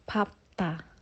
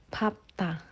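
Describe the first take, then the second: First: The middle consonants are p then t. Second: The same.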